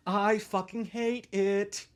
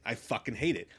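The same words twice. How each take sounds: First: Stretched slow and a little higher; mock-mournful drawl; slow drawn-out lament. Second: Said in the usual way. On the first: Shown as a demonstration. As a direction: drag the words out in misery.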